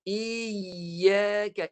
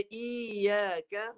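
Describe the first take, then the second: First: "Iya ke" slow, with the y held tight; doubled ya recitation. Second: "iya ke" with a light single y; ya not stopped. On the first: Teacher models before students try, doubled ya. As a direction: recite "Iya ke" in four distinct sounds, y pressed. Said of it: "Ni, bunyi je". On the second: Teacher warns the meaning changes, undoubled ya. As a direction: slip through "iya ke" without holding the y. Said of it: "ya tak ma-, tak mati". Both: Shown as a demonstration.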